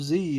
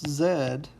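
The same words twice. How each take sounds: First: The letter is said as zee, American style. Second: The letter is said as zed.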